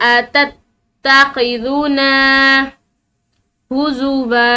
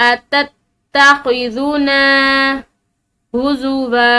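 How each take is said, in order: The two takes are said the same way.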